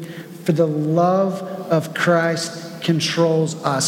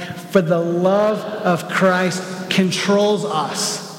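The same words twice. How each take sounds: First: It is said in a calm, plain way. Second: It is said with more energy and passion. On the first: "Can you say that with me?" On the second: "with a little bit of passion this time"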